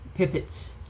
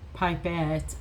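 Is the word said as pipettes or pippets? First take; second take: pippets; pipettes. First: The word is said as pippets. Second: The word is said as pipettes. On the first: The speaker calls it wrong. "I am always going to call them pippets" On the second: The speaker calls it right. "It's pipettes. I know they're pipettes"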